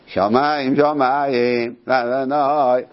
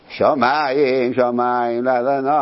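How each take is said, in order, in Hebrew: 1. העצירה באה אחרי המילה השנייה. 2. העצירה באה אחרי המילה הראשונה. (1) "יש דחי, דחי במילה השנייה" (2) "אני שומע ששלוחי ציבור קוראים"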